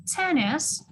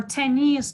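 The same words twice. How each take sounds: First: Tennis with a strong first syllable; stress on first syllable. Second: Tennis with the final syllable stressed; stress on second syllable. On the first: Teacher contrasting two ways, tennis stressed on the first syllable. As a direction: put the weight on TEN in tennis. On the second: Teacher contrasting two ways, tennis stressed on the second syllable. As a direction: put the weight on NIS in tennis. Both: Shown as a demonstration. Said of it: "Tennis on the first syllable".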